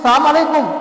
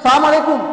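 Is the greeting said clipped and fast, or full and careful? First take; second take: clipped; clipped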